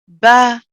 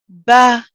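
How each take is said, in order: First: The consonant and vowel sound light and thin. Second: The consonant and vowel sound light and thin.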